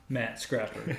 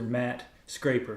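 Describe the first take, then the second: First: The surname rhymes with wrapper. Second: The surname rhymes with paper. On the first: The speaker calls it wrong. "not Matt Scrapper" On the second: The speaker calls it right. "Mister Matt Scraper"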